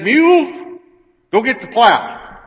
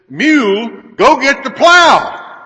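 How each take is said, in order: First: It is said at normal volume. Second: It is yelled very loudly.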